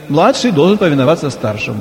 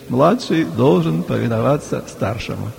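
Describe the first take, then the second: First: It is said in an assertive, untroubled tone. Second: It is said in a sorrowful, reluctant tone. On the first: The speaker is pleased the rule favours him. "Старший говорит" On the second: The speaker grudgingly accepts a rule against him. "младший так со скорбью на глазах говорит"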